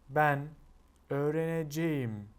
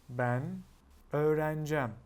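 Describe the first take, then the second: First: Every syllable of the verb is pronounced fully. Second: The verb is shortened, dropping several middle sounds. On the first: "It's difficult to say" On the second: "instead, you will just say"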